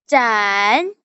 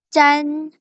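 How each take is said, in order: First: The pitch dips low then comes up. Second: The pitch stays high and level.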